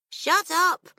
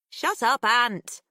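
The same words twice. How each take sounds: First: Mouth full. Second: Sharp, loud shut up; annoyed. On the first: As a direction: shut up said through a mouthful. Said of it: "mouth full". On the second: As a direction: snap it at him to stop. Pip shoves him, annoyed. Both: Acted.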